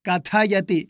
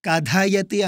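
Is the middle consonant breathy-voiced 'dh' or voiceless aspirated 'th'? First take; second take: th; dh. First: The middle consonant is a voiceless aspirated 'th'. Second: The middle consonant is a voiced aspirated 'dh'. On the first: The speaker calls it right. "రెండవ అక్షరం" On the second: The speaker calls it wrong. "అనకూడదు నాలుగో అక్షరం కాదు"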